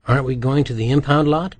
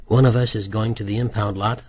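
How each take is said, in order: First: Said in the usual way. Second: "One" punched with a rise to single him out; stress on one. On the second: A narrator's reading. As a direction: hit "One" hard, then level out. Nicky corrects Rook pointedly.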